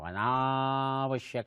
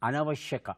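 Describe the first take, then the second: First: The second vowel is drawn out long. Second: The second vowel is short. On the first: The speaker calls it wrong. "ಆಡು ಭಾಷೆಯಲ್ಲಿ ಎಳಿತೇವೆ ನಾವು, ... ಅಂತ ಎಳಿತೇವೆ" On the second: The speaker calls it right. "ಇದು ಸರಿಯಾದ ಪ್ರಯೋಗ"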